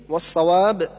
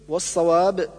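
No difference in how they are said.

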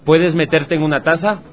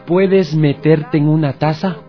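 First: The question is spoken at a fast speed. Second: The question is spoken at a normal speed.

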